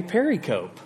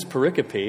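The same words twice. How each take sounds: First: Pericope said PER-ih-cope, rhyming with periscope; misread pericope. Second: Pericope said per-IH-ko-pee with four syllables; correct pericope. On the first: Shown as a demonstration. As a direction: say pericope as three syllables, ending in cope. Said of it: "I would call it". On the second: Retold or imitated. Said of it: "a smart person said".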